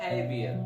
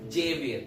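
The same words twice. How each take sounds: First: The name begins with an h sound. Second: The name begins with an English j sound. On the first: The speaker calls it right. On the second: The speaker calls it wrong.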